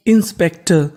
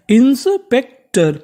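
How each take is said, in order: First: Said in the usual way. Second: इंस्पेक्टर stretched slowly and pitched higher; इंस्पेक्टर spoken slowly and higher, syllable by syllable; drawn-out model word. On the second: Shown as a demonstration. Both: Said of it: "तो meaning बन गई".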